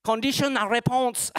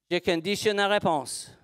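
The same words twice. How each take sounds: First: Higher-pitched mock of own accent in French; mimicked accent. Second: Said in the usual way. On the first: Teacher echoes someone copying their accent, high mimicked accent. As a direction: playfully parody the accent, pitched up. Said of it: "quelqu'un qui a répondu avec mon accent". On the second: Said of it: "je peux pas faire semblant de faire mon accent".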